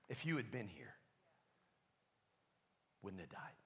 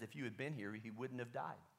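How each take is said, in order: First: It is said in a passive-aggressive tone. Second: It is said in a plain, neutral tone.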